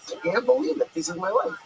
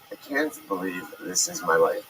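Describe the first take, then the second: First: It sounds thrilled and excited. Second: It sounds weary and dejected.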